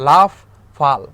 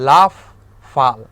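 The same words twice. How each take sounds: No difference in how they are said.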